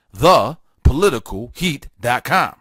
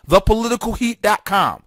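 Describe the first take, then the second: First: Word by word, with gaps; deliberate repeat. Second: Said in the usual way. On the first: Real, not acted. Host repeats his website for listeners, deliberate and word by word.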